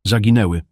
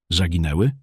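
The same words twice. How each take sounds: First: ZAGINĘŁY stated with a firm falling end; emphatic confirmation. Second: ZAGINĘŁY lifted into a rising question; questioning echo. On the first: Irritated father confirming the loss, „zaginęły” emphatic and falling. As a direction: confirm „zaginęły” with punch and a fall. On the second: Son checking the bad news, „Zaginęły” as rising question. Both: A narrator's reading.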